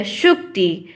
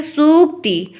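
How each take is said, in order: First: सुक्ति said as "shukti"; sh sound, short u. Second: सूक्ति drawn as "sooktee", raised pitch; higher, careful "sook-ti" for सूक्ति; s sound, long u. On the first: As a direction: start सुक्ति with a clear "sh" and short u. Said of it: "मैंने क्या उच्चारण किया". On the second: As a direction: start सूक्ति with a plain "s" and long oo. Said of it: "इस सूक्त को क्या पढ़ेंगे". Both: Shown as a demonstration.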